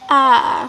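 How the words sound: The word is said at a low pitch. The speaker feels annoyed or disappointed. "diucapkan dengan nada rendah mengungkapkan rasa kesal atau kecewa"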